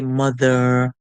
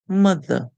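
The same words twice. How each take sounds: First: The ending is a full, drawn-out er sound. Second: The ending is a short, reduced schwa sound. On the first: The speaker calls it wrong. "you would not say mother" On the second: The speaker calls it right. "dropping the song short or using the schwa sound"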